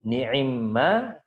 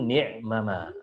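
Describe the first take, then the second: First: The two m sounds merge into one doubled m. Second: The two m sounds are separated by a vowel. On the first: This is the form as recited. "dibaca ni'imma" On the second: This is the underlying original form. "aslinya itu ni'mama"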